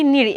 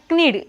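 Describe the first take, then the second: First: "knead" said as "need", starting on n; silent k in "knead". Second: "knead" with the k wrongly sounded, "k-need"; mispronounced "knead". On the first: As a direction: drop the k from "knead". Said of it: "You have to say only". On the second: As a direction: voice the silent k in "knead". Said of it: "don't say knead". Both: Shown as a demonstration.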